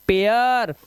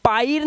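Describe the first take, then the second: First: पेयर as "pe-yar", vowel gliding from e to a; correct pronunciation. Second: पायर with an open "paa-ir"; wrong pronunciation. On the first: Teacher modelling the eya sound, correct pronunciation. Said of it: "एया की आवाज". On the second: Teacher showing what not to read, wrong pronunciation. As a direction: misread it as पायर, "aai" in place of "e-ya". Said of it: "पायर नहीं पढ़ना है". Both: Shown as a demonstration.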